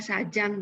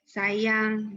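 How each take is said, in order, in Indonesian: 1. Konsonan tengahnya bunyi j. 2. Konsonan tengahnya bunyi y. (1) "Jadi bukan jang, pajah, sajang, bukan ya" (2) "huruf J tadi ya, untuk melafalkan font ai"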